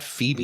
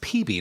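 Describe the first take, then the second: First: The name begins with an F sound. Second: The name begins with a P sound. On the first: The speaker calls it wrong. "not Phoebe" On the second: The speaker calls it right. "It's P B"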